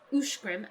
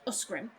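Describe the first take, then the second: First: The consonant after the first vowel is 'sh'. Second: The consonant after the first vowel is 's'. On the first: The speaker calls it right. "pronounced Ushgrim" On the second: The speaker calls it wrong. "and not Usgrim"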